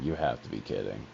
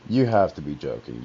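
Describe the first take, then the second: First: Said in the usual way. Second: Louder, insistent denial; loud disbelief. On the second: Retold or imitated. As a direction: refuse to believe it. Disbelief at friend's death news.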